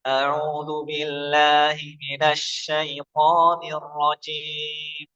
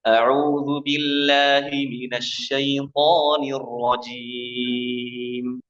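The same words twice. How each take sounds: First: A'udzu billahi minasy syaithanir rajim slow, with the nose sound kept in; nasal reading demo. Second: A'udzu billahi minasy syaithanir rajim recited slowly with every sound pushed into the nose; nasal wrong recitation. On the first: Shown as a demonstration. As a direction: recite slowly while the nasal sound shows. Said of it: "Kalau saya tutup". (ta'awudz pelan dengan suara sengau)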